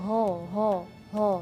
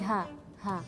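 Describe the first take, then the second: First: The letter is heavy, dark and echoing. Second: The letter is light and thin. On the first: The speaker calls it wrong. "suaranya seperti bergema gitu. Nah, itu salah" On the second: The speaker calls it right. "tapi ha ha"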